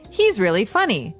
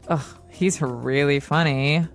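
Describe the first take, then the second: First: It is said sincerely, meaning he is funny. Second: It is said sarcastically, meaning he is not funny.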